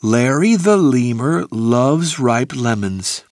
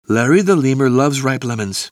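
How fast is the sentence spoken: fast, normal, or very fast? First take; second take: normal; fast. First: It is spoken at a normal, moderate pace. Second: It is spoken faster than a normal pace.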